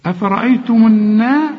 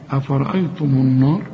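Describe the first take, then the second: First: النار with thin ن, light long aa; higher, louder, bright thin naa in النار; light nun and madd. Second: النار with a dark, thick naa; wrong heavy nun. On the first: Teacher corrects the student, light nun. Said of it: "النون والمد مرققين". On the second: Teacher mimics student's mistake, heavy nun. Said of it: "كل نون مرققة". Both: Shown as a demonstration.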